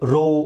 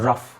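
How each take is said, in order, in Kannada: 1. ಈ ಪದ ದೀರ್ಘ o ಸ್ವರದಲ್ಲಿ ಕೊನೆಯಾಗುತ್ತದೆ. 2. ಈ ಪದ ಹ್ರಸ್ವ ಸ್ವರ ಮತ್ತು f ನಲ್ಲಿ ಕೊನೆಯಾಗುತ್ತದೆ. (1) "ರೋ ಅಂತ ಆಗೋದಿಲ್ಲ" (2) "ಇಟ್ಸ್ ರಫ್"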